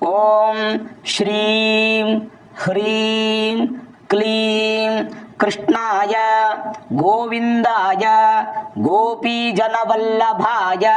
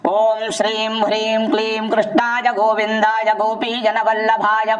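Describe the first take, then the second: First: It is recited slowly. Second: It is recited quickly. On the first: "ಇದು ಮೆಲ್ಲಗೆ ಹೇಳಿದೆ" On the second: "ಸ್ಪೀಡಾಗಿ ಹೇಳ್ಬಿಡ್ತೀನಿ ನಾನು"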